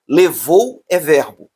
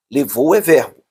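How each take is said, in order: First: "Levou é verbo", slow and spelled out; slow emphasis. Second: Said in the usual way. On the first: Shown as a demonstration. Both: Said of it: "teacher repeats key point".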